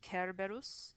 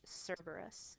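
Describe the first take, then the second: First: The name begins with a hard k sound. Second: The name begins with a soft s sound. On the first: This is the Latin pronunciation. "In Latin, ... C, which is always a k in Latin" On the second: This is the English pronunciation. "In English"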